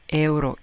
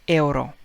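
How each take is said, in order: Both takes have the same delivery.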